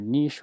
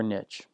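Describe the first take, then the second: First: Niche said "neesh", long ee and sh; British pronunciation. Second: Niche said "nitch", short i and tch; American pronunciation. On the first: Offering viewers both versions, first niche as "neesh". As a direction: say niche to rhyme with "leash". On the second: Offering viewers both versions, second niche as "nitch". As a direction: say niche to rhyme with "rich". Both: Shown as a demonstration. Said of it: "but your niche or niche".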